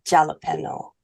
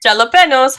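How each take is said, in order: First: Plain "Jalapeno." with h sound at the start; settled "Jalapeno." as the right way; correct pronunciation. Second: "Jalapenos" said shal-a-PEN-ohz with a sh sound, louder and higher; higher, louder "Jalapenos" as the wrong way; wrong pronunciation. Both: Shown as a demonstration. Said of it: "That pronunciation should never exist".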